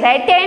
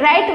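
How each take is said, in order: First: The word ends with an extra e vowel. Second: The word ends on the t sound. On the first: The speaker calls it wrong. "રાઈટે નથી વાંચતા" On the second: The speaker calls it right. "આપણે રાઈટ વાંચીએ છીએ"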